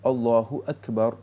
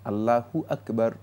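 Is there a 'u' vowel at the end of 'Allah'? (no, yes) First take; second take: yes; yes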